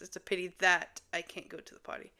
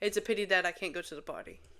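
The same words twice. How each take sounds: First: It is said slowly and carefully. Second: It is said quickly and casually.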